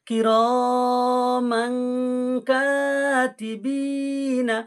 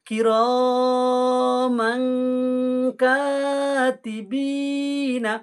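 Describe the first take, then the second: The two takes are said the same way.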